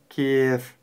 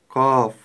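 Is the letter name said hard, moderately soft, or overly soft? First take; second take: overly soft; hard. First: The letter name is said with an overly soft sound. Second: The letter name is said with a hard sound. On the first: "Также не стоит произносить чересчур мягко" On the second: "Не следует произносить букву КЭФ твердо"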